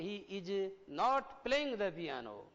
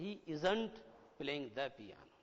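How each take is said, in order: First: 'Is not' is said as two full words. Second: 'Is not' is joined into one contracted word. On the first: "आप कहोगे he इज नॉट playing the piano" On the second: "इज नॉट की जगह क्या बोलोगे?"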